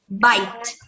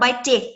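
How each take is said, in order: First: The stress is on the first syllable. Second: The stress is on the second syllable. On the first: The speaker calls it right. "pronunciar essa aqui mais forte" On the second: The speaker calls it wrong. "e não"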